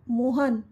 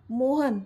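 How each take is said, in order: First: Mild narrated shout of the name; restrained angry yell. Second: Mildly annoyed call of the name; understated vexed exclamation; irritated. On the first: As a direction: call out sharply, holding back the volume. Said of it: "Amit जोरात ओरडला". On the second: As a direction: call him out with a touch of irritation. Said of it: "Amit चिडून बोलला". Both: A narrator's reading.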